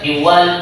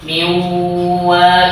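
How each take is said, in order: First: The nasal sound passes quickly without a hold. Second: The nasal sound is held for a while. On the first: The speaker calls it wrong. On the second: The speaker calls it right. "Ada tempo di sana, agak lama gitu"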